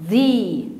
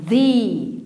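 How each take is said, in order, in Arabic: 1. تنتهي الكلمة بصوت 'ee' طويل. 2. تنتهي الكلمة بصوت 'ee' طويل.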